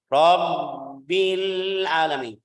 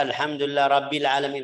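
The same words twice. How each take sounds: First: Slow chanted Rabbil with held double b; doubled consonant. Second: Rabbil said without the doubled b; wrong reading. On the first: Teacher models Rabbil with clear tasydid. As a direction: lean on the bb in Rabbil, slow and sung. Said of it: "Harus tasydidnya". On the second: Teacher shows the wrong reading of Rabbil. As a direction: Rabbil read short, single b. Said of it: "Jadi jangan baca". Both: Shown as a demonstration.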